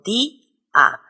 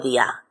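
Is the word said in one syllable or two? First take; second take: two; one. First: The vowels are split into two syllables. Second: The vowels merge into a single syllable. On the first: The speaker calls it right. "se pronuncian en dos sílabas diferentes" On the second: The speaker calls it wrong. "Yo no digo día"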